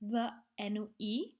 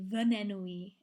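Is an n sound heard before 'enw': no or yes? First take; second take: no; yes. First: No n sound is added before enw. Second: An n sound is added before enw. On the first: "Instead of" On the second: "we pop in a little n"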